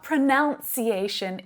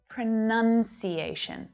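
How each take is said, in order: First: The second syllable has an 'ow' vowel. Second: The second syllable has an 'uh' vowel. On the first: The speaker calls it wrong. "it's not pronunciation" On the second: The speaker calls it right. "has that uh vowel sound in there"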